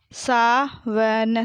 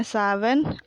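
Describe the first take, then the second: First: Sawan drawn out as sa, va, na; very slow Sawan, each letter held apart; spelled out. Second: Said in the usual way. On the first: Shown as a demonstration. Teacher sounding out Sawan for pupils, syllable by syllable. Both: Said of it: "मैंने इस तरीके से पढ़ा".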